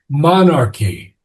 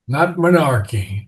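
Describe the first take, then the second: First: The stress is on the first syllable. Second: The stress is on the second syllable. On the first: The speaker calls it right. "accent of mon" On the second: The speaker calls it wrong. "that you're accenting the second syllable"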